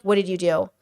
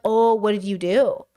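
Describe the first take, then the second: First: Lower, mock-stern owner scolding a naughty dog; scolding a pet. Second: A touch of mock-stern pet owner, rising oh; scolding a pet. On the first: Owner catching a naughty dog: mild mock scolding. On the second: Owner catching a naughty cat: mild mock scolding. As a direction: lightly scold a guilty pet. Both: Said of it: "That's what he sounds like to me".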